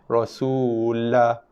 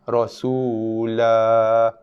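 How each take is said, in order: First: The final vowel is cut short. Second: The final vowel is held for two beats. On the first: The speaker calls it wrong. "Tak nak baca dengan Rasulah" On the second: The speaker calls it right. "Dia mesti dibaca dengan kadar mad dua harakat"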